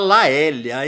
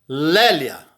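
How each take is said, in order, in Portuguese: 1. A primeira vogal é um A seguido de E. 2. A primeira vogal é um E simples. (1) "Não me vão falar Laélia, hein? É muito caipira" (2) "Lé. Lélia"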